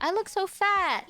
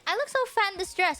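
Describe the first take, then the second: First: Whiny complaint. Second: Quick sulky moan; fast whiny complaint. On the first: To friends, whining about a dress, higher and whiny. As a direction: whine it high and sorry for yourself. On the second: To friends about the dress, a fast whiny moan. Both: Retold or imitated. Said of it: "I was like".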